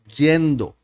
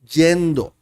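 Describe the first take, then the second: Both takes have the same delivery.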